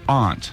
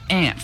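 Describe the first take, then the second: First: The word has a broad 'ah' vowel. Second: The word sounds like the insect 'ant'. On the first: The speaker calls it right. "It's your aunt" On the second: The speaker calls it wrong. "It's not aunt. Those are insects"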